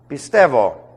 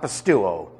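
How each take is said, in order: First: The middle has a 'v' sound: pis-TEV-o. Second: The middle has a 'u' vowel: pis-TU-o. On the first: The speaker calls it right. "Pistevo, not pistuo" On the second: The speaker calls it wrong. "not pistuo"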